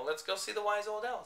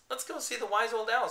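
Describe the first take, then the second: First: Said in the usual way. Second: High, loud custardy voice; yellow voice. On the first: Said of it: "said Completely Bear". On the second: Acted. Painted bear suggesting owl, yellow-sounding. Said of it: "his voice was so yellow".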